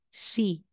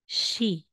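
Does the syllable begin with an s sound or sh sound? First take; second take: s; sh. First: The syllable begins with a plain s sound. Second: The syllable begins with an sh sound. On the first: The speaker calls it wrong. "hindi po si" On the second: The speaker calls it right. "ang bigkas niya ay she"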